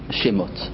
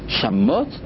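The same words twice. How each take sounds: First: The first vowel is a short 'e' sound. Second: The first vowel is a full 'a' sound. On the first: The word means names. "אל תקרא שמות אלא שמות" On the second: The word means desolations. "שמות זה מלשון שיממון"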